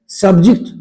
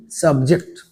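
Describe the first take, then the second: First: सब्जेक्ट said 'SUB-jikt', short 'i'; short second vowel in सब्जेक्ट; noun pronunciation. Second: सब्जेक्ट said 'sub-JEKT', full 'e'; 'subject to' pronunciation. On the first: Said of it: "पढ़ेंगे कब? विषय के लिए।". (सब्जेक्ट को 'सब्जिक्ट' बोलें) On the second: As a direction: open second vowel in सब्जेक्ट. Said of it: "के प्रभाव में आना". (सब्जेक्ट में साफ़ 'जे') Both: Shown as a demonstration.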